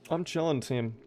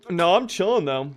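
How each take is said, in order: First: Soft repeat. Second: "chilling" lifted high and bright, fall at end; upbeat reassurance. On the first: Streamer reassures his team again, softly and trailing. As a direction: murmur "I'm chilling, team" softer. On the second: Streamer tells chat he's fine, high and upbeat. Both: Real, not acted.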